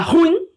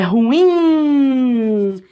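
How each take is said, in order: First: The stress is on the first syllable. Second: The stress is on the second syllable. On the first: The speaker calls it wrong. "foca no, U, no R U" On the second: The speaker calls it right. "mais forte aqui no in"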